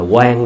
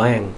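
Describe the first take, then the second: First: The word starts with a 'kw' sound. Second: The word starts with a plain vowel sound. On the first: This is the Southern way of reading it. The speaker calls it wrong. "người Nam là quan luôn à" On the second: This is the Northern way of reading it. The speaker calls it right. "người Bắc á thì đọc là oan"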